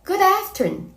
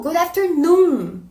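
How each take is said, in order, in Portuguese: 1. A última sílaba noon é curta e átona. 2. A última sílaba noon é alongada e tônica.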